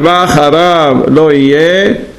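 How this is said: There is a clear pause before the next words. Nothing comes after Him; He is our one God. The speaker calls it right. "Then we wait, and then we continue"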